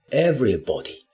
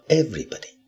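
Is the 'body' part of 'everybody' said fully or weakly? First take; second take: fully; weakly. First: The 'body' part is full and unreduced. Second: The 'body' part is weak and reduced. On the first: The speaker calls it wrong. "当然你也可以读everybody，……但是不好听" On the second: The speaker calls it right. "这个地方呢body 是弱读"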